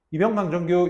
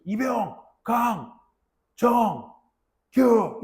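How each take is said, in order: First: "이병, 강, 정, 규" rattled off in one breath with no gaps; wrong way, run together. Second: Each syllable punched out loud and high with a pause between, "이병, 강, 정, 규"; proper rank call-out. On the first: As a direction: rush "강 정 규" together like one word. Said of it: "이러면 안 돼". (틈 없이 붙여서 말하는 잘못된 관등성명) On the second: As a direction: bark "이병", then "강", "정", "규" as separate beats with gaps. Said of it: "이래야 돼". (또박또박 끊어서 크게 외치는 관등성명) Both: Shown as a demonstration.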